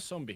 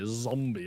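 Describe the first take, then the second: First: The word begins with an s sound. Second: The word begins with a z sound. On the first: The speaker calls it wrong. "I like how you say zombie with an S" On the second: The speaker calls it right. "Oh, sorry"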